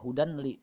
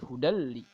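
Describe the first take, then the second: First: The n sound is kept before the l. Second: The n sound merges into the l. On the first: The speaker calls it wrong. "Bukannya hudan li" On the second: The speaker calls it right. "tapi hudal li"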